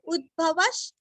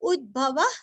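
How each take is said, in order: First: The word ends with a soft 'sh' sound. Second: The word ends with a soft 'h' sound. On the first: "विसर्ग का आधा श" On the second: "कभी कभी ह का भी उच्चारण कर सकते हैं"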